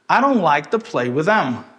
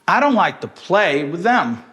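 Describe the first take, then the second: First: Weak syllables are reduced and linked in stress-timed rhythm. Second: Weak syllables are reduced and linked in stress-timed rhythm.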